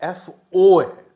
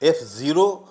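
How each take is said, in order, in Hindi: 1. Subscript को अक्षर O के रूप में पढ़ा जाता है। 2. सबस्क्रिप्ट को संख्या जीरो के रूप में पढ़ा जाता है। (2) "एफ जीरो या एफ नॉट नहीं है"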